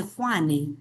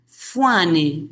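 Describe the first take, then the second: First: Juane said with a Spanish J, "HWA-ne"; standard J sound. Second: Fuane said with an F sound opening it. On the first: Teacher mock-correcting jungle-region speech, Juane with standard J. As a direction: open Juane on the standard J, slowly. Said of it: "se dice Juane". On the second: Teacher mimicking jungle-region speech, Fuane opened with F. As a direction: start Fuane on a clear F, as "FWA-ne". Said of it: "No se dice". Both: Shown as a demonstration.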